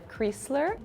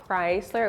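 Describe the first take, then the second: First: The first vowel is an E sound. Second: The first vowel is not an E sound.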